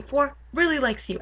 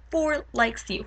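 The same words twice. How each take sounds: First: "really" lifted higher for emphasis; stress on "really". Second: Said in the usual way. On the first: Real, not acted. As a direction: lean on "really" with raised pitch. Repeats adding emphatic "really.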